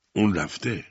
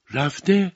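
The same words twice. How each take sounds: First: Said in the usual way. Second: High, rising disbelief; shocked question. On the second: A narrator's reading. Tishin hearing from the commissioner he is gone, shocked question. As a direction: echo it in shock, pitch leaping up.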